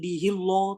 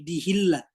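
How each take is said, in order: First: The L in Allah sounds thick and dark. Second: The L in Allah sounds thin and light. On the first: The speaker calls it wrong. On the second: The speaker calls it right. "Jadi harus tipis"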